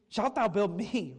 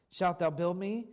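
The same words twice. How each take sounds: First: Slow, "thou" leaned on, tune falling; slow down and punch "thou"; "thou" stressed, falling close. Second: "shalt" leaned on, question rising at the end; "shalt" stressed, rising question. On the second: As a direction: hit "shalt" and lift the tune up. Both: Shown as a demonstration. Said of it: "read it that way".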